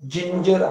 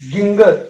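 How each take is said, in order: First: It begins with a j sound. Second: It begins with a hard g sound. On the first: The speaker calls it right. "याचा उच्चार जिंजर असा होतो" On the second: The speaker calls it wrong. "गिंगर असा उच्चार होऊ शकतो"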